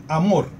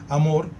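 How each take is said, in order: No difference in how they are said.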